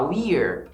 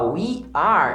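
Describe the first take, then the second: First: The two words merge into one contracted syllable. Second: Two separate words are said in full. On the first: "eu posso falar we're" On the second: "em vez de falar we are"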